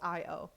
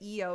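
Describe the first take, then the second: First: The letters are read as 'eye' and 'oh'. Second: The letters are read as 'ee' and 'oh'. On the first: The speaker calls it right. "but it's I O" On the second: The speaker calls it wrong. "I always want to say E O"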